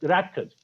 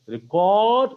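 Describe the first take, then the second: First: "record" said RECK-erd, first syllable stressed. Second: "record" said re-CORD, long second syllable; stress on second syllable. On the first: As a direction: punch the REC of "record", short weak ending. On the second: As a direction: draw out and punch the CORD of "record". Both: Shown as a demonstration. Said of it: "of stress on a different syllable".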